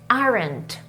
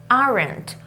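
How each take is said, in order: Both takes have the same delivery.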